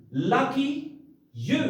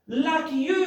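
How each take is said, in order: First: Said in the usual way. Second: High, bright congratulation; modelled cheerful reply; happy for you. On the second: Shown as a demonstration. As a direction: cheer them on.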